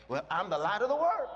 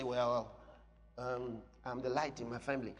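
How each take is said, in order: First: Confident claim, building to the end; bold declaration. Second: Low, hesitant, unambitious claim; timid hedging. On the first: Believer claiming to be the light, bold and unashamed. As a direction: declare it boldly, lifting the last words. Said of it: "Be bold". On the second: Believer backing off a claim that sounds big, timid and hedging. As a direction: shrink from the big words in a low mumble. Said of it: "Now, that sounds big. So you say". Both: Acted.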